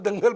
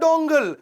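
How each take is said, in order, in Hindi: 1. पहला स्वर 'a' की ध्वनि है। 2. पहला स्वर 'o' की ध्वनि है।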